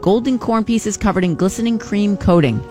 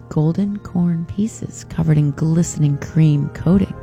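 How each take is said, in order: First: The phrase is said at a normal pace. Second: The phrase is said slowly.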